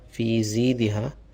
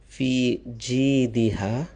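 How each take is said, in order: First: The second word begins with a z sound. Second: The second word begins with a j sound. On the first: The speaker calls it wrong. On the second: The speaker calls it right.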